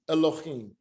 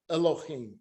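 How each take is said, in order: Both takes have the same delivery.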